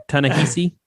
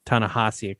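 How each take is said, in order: First: Ta-Nehisi tried as "tuh-nuh-HEE-see", rising questioningly; unsure pronunciation. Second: Ta-Nehisi said as "tah-nuh-HAH-see", softer and falling; corrected pronunciation. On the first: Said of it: "I'm not gonna say it wrong". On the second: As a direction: repeat Ta-Nehisi with "hah" in place of "hee". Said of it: "close though". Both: Real, not acted.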